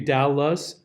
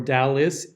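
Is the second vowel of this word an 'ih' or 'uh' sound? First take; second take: uh; ih. First: The unstressed second vowel is a neutral 'uh'. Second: The unstressed second vowel is a short 'ih'.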